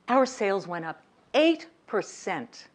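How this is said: It is said with proud, confident enthusiasm. The result is good and impressive. The speaker calls it right. "eight percent is impressive when I say it that way"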